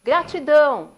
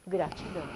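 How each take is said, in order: First: High, loud single word; father calling to the mountains. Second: Faint echo. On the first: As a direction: call out gratitude across the valley. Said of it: "e fala". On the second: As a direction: give it back like a distant echo. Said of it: "vem uma voz". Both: Retold or imitated.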